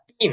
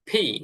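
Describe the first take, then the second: First: The p sound is plain, without a puff of air. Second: The p sound has a strong puff of air. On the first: The speaker calls it wrong. "এটা পি না" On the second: The speaker calls it right. "প এবং ফ এর মাঝামাঝি একটা ফি"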